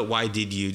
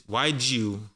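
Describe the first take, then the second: First: "why did you" with "did" said in full; full, careful "why did you"; unblended form. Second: "why did you" shrunk to "why-dju"; linked, shortened "whydju"; blended form. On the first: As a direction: keep "did" a separate word in "why did you". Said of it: "Don't even do the". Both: Shown as a demonstration.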